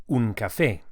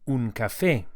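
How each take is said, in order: No difference in how they are said.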